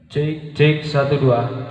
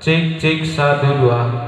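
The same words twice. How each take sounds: First: The sound is quieter and less clear. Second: The sound is louder and clearer.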